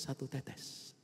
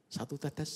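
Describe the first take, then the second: First: Satu tetes whispered, voiceless and softer. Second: Said in the usual way. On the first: Shown as a demonstration. Preacher whispering satu tetes about the poison drops. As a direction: breathe the words satu tetes like a secret.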